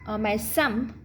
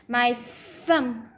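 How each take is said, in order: First: The word starts with a hard stop sound. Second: The word starts with a breathy th sound. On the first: The speaker calls it wrong. "our tongue is not coming out. That's not correct" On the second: The speaker calls it right. "Notice my thumb is coming out"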